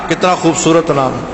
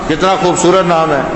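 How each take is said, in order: Both takes have the same delivery.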